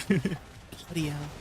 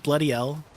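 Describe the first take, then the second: First: Slow, soft Aussie bloody hell, laughing through it; mock Australian accent, laughing. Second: Said in the usual way. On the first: Shown as a demonstration. Streamer tries an Australian saying for chat, slow laughing Aussie accent. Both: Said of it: "Teach me some Australian sayings".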